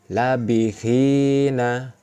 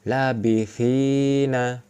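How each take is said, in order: No difference in how they are said.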